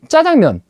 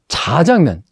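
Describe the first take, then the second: First: It starts with a tense, hard 'jj' sound. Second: It starts with a soft, plain 'j' sound. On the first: This is the easier form people actually use. "발음이 쉽지 않다 보니 짜장면 하게 된 것이고요" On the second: This is the form the standard prescribes. "살짝 쉬어서 자장면 이렇게 해야 됩니다"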